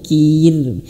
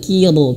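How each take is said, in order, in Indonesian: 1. Bunyi r-nya tipis dan ringan. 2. Bunyi r-nya tebal dan berat. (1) "tapi kir" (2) "bukan kir"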